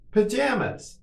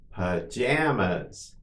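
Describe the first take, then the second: First: Much higher, shorter take; quicker model. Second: Drawn-out word for learners; slow model. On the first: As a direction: say it quickly on a raised pitch. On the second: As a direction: say it slowly and evenly for repetition. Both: Shown as a demonstration. Teacher models word for repetition.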